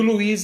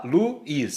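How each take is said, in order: First: Said in the usual way. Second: "Luiz" slowly, as lu, then iz; syllabes séparées. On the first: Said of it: "olha lá, Luiz". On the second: Shown as a demonstration. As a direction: break "Luiz" between u and i. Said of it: "O A ficou separado do U".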